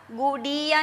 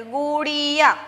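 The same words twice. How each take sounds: First: गुड़िया said the wrong way, with a plain hard ड instead of the flapped ड़; wrong pronunciation. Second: गुड़िया with a clear flapped ड़, carefully said; correct pronunciation. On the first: Teacher showing students the wrong way to say गुड़िया, mispronounced. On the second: Teacher modelling the right गुड़िया for students, careful and clear. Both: Shown as a demonstration. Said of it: "गुड़िया नहीं बोलेंगे".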